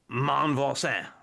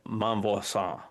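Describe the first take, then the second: First: It has a heavy, exaggerated French accent. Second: It is said plainly, without the exaggerated accent.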